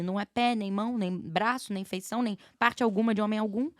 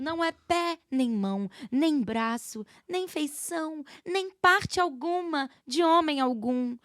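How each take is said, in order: First: It is spoken naturally, like everyday conversation. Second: It is recited in a stiff, formal theatrical cadence. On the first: The character speaks like a real person. The speaker calls it right. "Julieta é uma pessoa" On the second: Nobody actually talks like this. The speaker calls it wrong. "Quem é que fala assim?"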